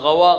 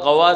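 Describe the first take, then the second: The two takes are said the same way.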